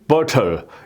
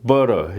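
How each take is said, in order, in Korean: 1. 영국식 억양으로 발음해요. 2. 미국식 억양으로 발음해요. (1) "영국인들은 butter 이렇게 발음하고" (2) "미국인들은 butter 여기에 가깝게 이렇게 발음을"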